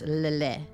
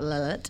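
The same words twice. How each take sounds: First: The name is said with a French pronunciation. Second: The name is said with an anglicized pronunciation. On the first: The speaker calls it right. "it's Lillet" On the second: The speaker calls it wrong. "It's not Lillet"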